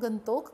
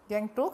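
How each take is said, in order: First: The name is said as 'Gantok', local style. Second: The name is said as 'Gangtok', English style. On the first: This is the original local name. The speaker calls it right. "गंतोक कहिए। इसका असली नाम गंतोक है।" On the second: This is the English way of saying the name. The speaker calls it wrong. "अंग्रेजी में ही उच्चारण कर रही है गैंगटोक"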